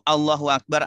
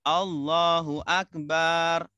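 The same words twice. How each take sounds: First: No vowel is held extra long. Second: The final ba vowel is held long. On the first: Allah is the greatest. The speaker calls it right. "artinya Allah Maha Besar" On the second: It calls Allah a drum. The speaker calls it wrong. "kalau kita panjangkan baknya"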